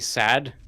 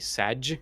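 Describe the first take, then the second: First: The word ends with a plain d sound. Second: The word ends with a j sound. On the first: The ordinary way of saying it. "You don't say sad" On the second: The way young people say it now. "you say saj"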